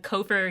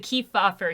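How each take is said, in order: First: The name is said as Cofer. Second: The name is said as Kefauver. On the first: The speaker calls it wrong. "I know I've mispronounced them" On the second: The speaker calls it right. "I'm saying it right now"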